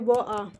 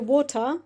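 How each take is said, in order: First: The T sound in the middle is left out. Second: The T sound in the middle is clearly pronounced. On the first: This is how people in other parts of the world say it. "They just don't say the T word at the T letter at all. They just silent it" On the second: This is how the speaker's own community says it. "we say water"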